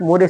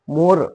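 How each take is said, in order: First: The word ends with an extra 'eh' vowel. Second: The word ends on the r sound. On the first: The speaker calls it wrong. "No not मोरे" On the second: The speaker calls it right. "Sir मोर"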